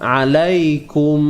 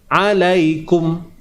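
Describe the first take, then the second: First: The final m keeps a light nasal hum. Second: The final m is clipped with no nasal hum. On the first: The speaker calls it right. "ianya tetap dibaca dengan izhar, dengan jelas" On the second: The speaker calls it wrong. "bukanlah kata jelas alaikum"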